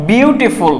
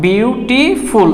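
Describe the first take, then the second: First: Said in the usual way. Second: বিউটিফুল drawn out slowly in three separate syllables. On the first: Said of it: "এই ওয়ার্ডটা একবারে উচ্চারণ করা যায় না". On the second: Shown as a demonstration. Teacher showing students the syllables in বিউটিফুল, slowly syllable by syllable. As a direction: split বিউটিফুল into three long, distinct beats. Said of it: "এখানে তিনটা syllable আছে".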